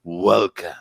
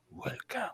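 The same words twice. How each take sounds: First: Said in the usual way. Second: Hushed, unvoiced echo of the greeting; whispered. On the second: Podcast host repeats his greeting to new listeners, whispered. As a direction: drop it to a whisper.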